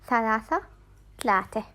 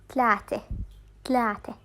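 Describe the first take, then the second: Both takes have the same delivery.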